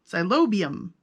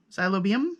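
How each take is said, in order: First: Xylobium. said firmly with a falling tune; settling the pronunciation. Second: Xylobium? asked with a rising, unsure tune; trying a pronunciation. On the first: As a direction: land Xylobium like a final answer. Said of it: "put the emphasis on the right syllable". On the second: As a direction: test the word Xylobium as a question. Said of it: "how do you say that?". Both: Shown as a demonstration.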